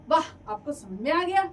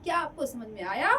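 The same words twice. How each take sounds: First: "वाह" and "गया" said with bright surprised emphasis, louder; exclamation. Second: "आया" rising at the end as a real question. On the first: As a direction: exclaim it with delight. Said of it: "विस्मयादिबोधक चिन्ह". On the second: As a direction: ask it, letting "आया" lift up. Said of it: "जैसे प्रश्नवाचक चिन्ह मैं कर रही हूँ". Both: Shown as a demonstration.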